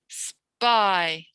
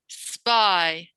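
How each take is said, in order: Both takes have the same delivery.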